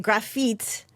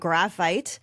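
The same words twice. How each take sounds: First: The word is pronounced with a French accent. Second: The word is pronounced with an English accent. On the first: "I should say graphite uh, in French" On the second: "I know that's the English pronunciation"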